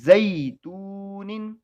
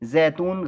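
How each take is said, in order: First: The first vowel glides from a to i. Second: The first vowel is a flat e sound. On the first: The speaker calls it right. "कैसे पढ़ेंगे" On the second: The speaker calls it wrong. "जैतून गलत होगा"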